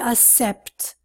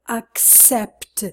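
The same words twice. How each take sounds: First: There is no clear k sound before the s. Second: A clear k sound comes before the s. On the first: The speaker calls it wrong. "They say accept. Wrong" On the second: The speaker calls it right.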